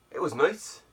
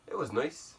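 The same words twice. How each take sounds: First: Said in the usual way. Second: The repeat drops much softer, as if said to himself; quiet echo. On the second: Real, not acted. Vlogger repeats to himself that it was nice, quiet and soft. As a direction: let it fade into a soft afterthought. Repeats the phrase, second fades.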